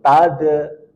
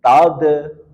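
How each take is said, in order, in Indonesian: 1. Konsonannya ditahan lalu memantul. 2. Konsonannya ditahan lalu memantul.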